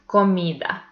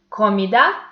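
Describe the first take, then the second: First: The stress is on the middle syllable. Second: The stress is on the last syllable. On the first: The speaker calls it right. "So we pronounce this word comida" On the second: The speaker calls it wrong. "putting more intensity into this last syllable"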